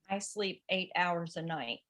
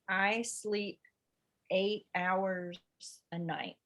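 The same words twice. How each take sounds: First: It is read at a normal pace. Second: It is read very slowly.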